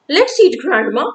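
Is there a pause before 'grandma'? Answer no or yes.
no. There is no pause before the last word. Grandma is the one being eaten. The speaker calls it wrong. "With no pause here"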